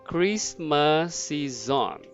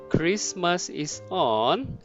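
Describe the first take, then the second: First: The words are linked smoothly into each other. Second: The words are said separately, without linking.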